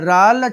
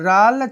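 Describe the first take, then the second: No difference in how they are said.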